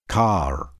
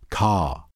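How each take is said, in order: First: The r after the vowel is pronounced. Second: The r after the vowel is silent.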